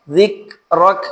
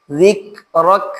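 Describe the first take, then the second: The two takes are said the same way.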